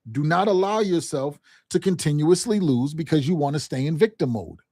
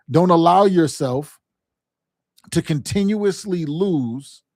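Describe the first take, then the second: First: Said in the usual way. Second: Slow, each word weighed; deliberate slow warning to a struggling team; slow emphatic warning. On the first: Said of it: "same point repeated at speed". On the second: Shown as a demonstration. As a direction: drive it home slowly, like a coach. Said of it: "coach repeating the key point".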